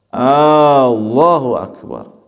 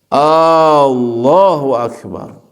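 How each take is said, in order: No difference in how they are said.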